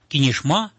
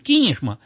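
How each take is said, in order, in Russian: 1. Ударение на последнем слоге. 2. Ударение на первом слоге. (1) "Кинешма у нас не говорят" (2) "В первом слоге на «ки», не на «ма»"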